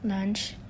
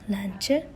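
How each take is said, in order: First: It is said without an added vowel sound. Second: An extra e vowel sound is added.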